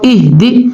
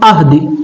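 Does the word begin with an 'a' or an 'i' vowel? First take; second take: i; a. First: The word begins with an 'i' vowel. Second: The word begins with an 'a' vowel. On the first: The speaker calls it right. "Quran पाक में लिखा है" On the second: The speaker calls it wrong. "इहदी को पढ़ेंगे हम अहदी"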